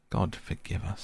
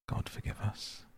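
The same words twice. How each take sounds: First: Said in the usual way. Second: Breathed out, barely voiced and much softer; a stunned prayer under the breath; hushed whisper. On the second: A narrator's reading. Utterson, shaken after the window, whispers a prayer.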